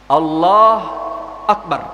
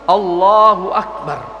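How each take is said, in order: First: There is a pause between the two words. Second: The two words are joined without pause.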